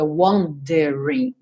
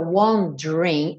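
First: The middle vowel is pronounced, giving three syllables. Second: The middle vowel is dropped, giving two syllables. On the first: The speaker calls it wrong. "não diga wondering" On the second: The speaker calls it right. "o E do meio não é pronunciado"

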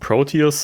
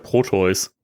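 First: The name is said with English-style sounds. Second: The name is said with German-style sounds. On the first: This is how the original version says it. "Das Proteus aussprechen" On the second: This is how it would be said in German. "im Deutschen wäre es ja Proteus"

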